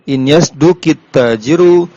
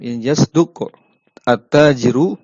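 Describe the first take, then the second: First: The verb ends in -i, joined to the next word. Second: The verb and the next word are said separately.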